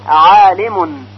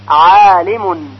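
The two takes are said the same way.

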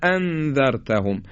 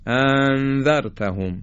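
First: Two glottal stops are pronounced distinctly and heavily. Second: The two glottal stops run together into one. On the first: The speaker calls it right. "وقتی دو تا همزه رو تلفظ میکنیم باید بگیم" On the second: The speaker calls it wrong. "یا اینکه به همدیگه وز کنیم"

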